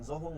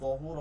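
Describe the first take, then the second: First: The first consonant sounds like a z. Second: The first consonant sounds like a d. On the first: The speaker calls it wrong. "জহুর না কি হবে" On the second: The speaker calls it right. "দহুর হবে"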